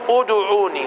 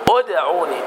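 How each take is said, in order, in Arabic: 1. يحمل صوت الدال حركة الضم. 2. صوت الدال ساكن، دون حركة. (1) "ومن الخطأ أن أقول أدعوني، أدو، أنا هنا ضممت ماذا؟ الدال" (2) "والدال ساكنة، فأقول أدعوني، أد"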